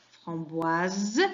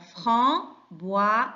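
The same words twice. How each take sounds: First: "framboise" as a whole word with a clear buzzing z at the end; voiced z ending. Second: "framboise" slowly in three parts, fram, boi, ze; syllable by syllable. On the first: Teacher showing pupils S between vowels, "framboise" ending on a voiced z. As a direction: run "framboise" together and sound the final s as z. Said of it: "la lettre S entre deux voyelles". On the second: Teacher recapping the syllables, "framboise" slowly split into three. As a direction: break "framboise" into fram, boi, ze with pauses, voicing the final syllable. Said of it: "il y a trois syllabes".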